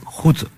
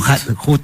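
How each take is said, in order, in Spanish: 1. El nombre se pronuncia al estilo alemán. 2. El nombre se pronuncia al estilo inglés. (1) "es Hut, el apellido de raigambre más germana que británica" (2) "no Hut"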